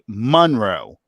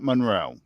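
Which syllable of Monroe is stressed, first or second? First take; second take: first; second. First: The stress is on the first syllable. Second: The stress is on the second syllable. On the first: "the emphasis on the M O N" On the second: "not Monroe"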